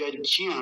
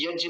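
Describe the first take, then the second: First: यज्ञ as yaj-gya, with a glide after j; proper ज्ञ. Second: यज्ञ as short yajj, the glide missing; wrong example: end यज्ञ on a bare j; wrong ज्ञ. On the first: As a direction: let ज्ञ in यज्ञ open into a gliding vowel. (यज्ञ में ज्ञ स्पष्ट) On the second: (यज्ञ, गलत रूप में) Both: Shown as a demonstration. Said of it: "यज्ञ नहीं".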